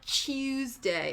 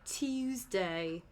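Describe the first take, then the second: First: The accent is strongly exaggerated. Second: The accent is mild and less aggressive. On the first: The speaker calls it wrong. "So it's not Tuesday" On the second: The speaker calls it right. "it's like Tuesday. So it's like a less aggressive version of that"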